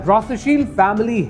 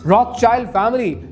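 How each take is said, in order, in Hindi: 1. दूसरा शब्दांश 'sheeld' जैसा सुनाई देता है। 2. दूसरा शब्दांश 'child' जैसा सुनाई देता है।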